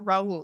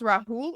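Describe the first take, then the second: First: No h sound is heard between the vowels. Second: An h sound is heard between the vowels.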